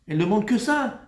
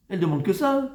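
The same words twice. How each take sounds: The two takes are said the same way.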